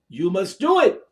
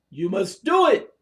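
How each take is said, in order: Both takes have the same delivery.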